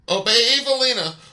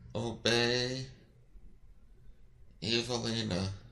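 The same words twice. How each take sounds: First: It is shouted loudly. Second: It is mumbled quietly.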